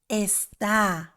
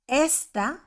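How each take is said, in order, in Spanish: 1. El acento está en la última sílaba. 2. El acento está en la primera sílaba.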